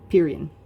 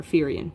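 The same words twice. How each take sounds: First: "Pyrrhian" with a P, PEER-ee-un; first pronunciation. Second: "Pyrrhian" with an F, FEER-ee-un; alternative pronunciation. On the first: Lecturer offers two pronunciations, "Pyrrhian" as PEER-ee-un. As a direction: start "Pyrrhian" on a popped P sound. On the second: Lecturer offers the other pronunciation, "Pyrrhian" as FEER-ee-un. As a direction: start "Pyrrhian" on an F sound. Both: Shown as a demonstration. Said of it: "pronounced a couple of different ways".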